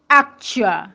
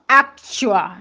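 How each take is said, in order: The two takes are said the same way.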